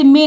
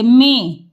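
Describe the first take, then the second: First: "में" said as oral me; the mistaken "में", no nasal ending; without nasal. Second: "में" as mẽ, through the nose; nasalised vowel. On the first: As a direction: say "में" with the vowel kept out of the nose. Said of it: "तो इसे में नहीं बोलेंगे". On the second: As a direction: model "में" with a held nasal e. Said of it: "एक ही मात्रा और बिंदी है". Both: Shown as a demonstration.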